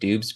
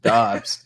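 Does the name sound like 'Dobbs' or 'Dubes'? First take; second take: Dubes; Dobbs. First: The name is said like 'Dubes'. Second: The name is said like 'Dobbs'. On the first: The speaker calls it wrong. "I would love to say it Dubes" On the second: The speaker calls it right. "I actually do uh, say it correctly"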